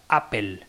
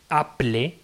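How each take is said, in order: First: "Apple" said with the L and E swapped, "apel"; Apple as pronounced. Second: "Apple" read as written, "a-ple"; Apple as spelt. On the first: Explaining pronunciation, "Apple" said "apel". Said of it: "se pronuncia Apple". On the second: Explaining spelling, "Apple" read as written. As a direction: read "Apple" letter for letter, "aple". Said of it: "se escribe Apple". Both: Shown as a demonstration.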